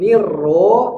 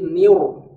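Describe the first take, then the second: First: The doubled r starts thin, then turns thick. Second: The doubled r is thick throughout. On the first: The speaker calls it wrong. "Bukan nirro" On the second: The speaker calls it right. "ro tebal lagi"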